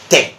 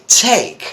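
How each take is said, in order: First: The t is said without a puff of air. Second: The t is said with a puff of air. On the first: The speaker calls it wrong. "you don't say take" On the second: The speaker calls it right. "You say take. ... some kind of air coming out ... we call it aspiration"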